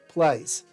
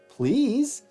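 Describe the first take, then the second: First: It is said in an Irish accent. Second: It is said in a Californian accent.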